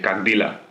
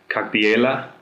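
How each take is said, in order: First: The second word is said without the E sound. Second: The second word is said with an E sound. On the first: "without the E" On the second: "I write it like"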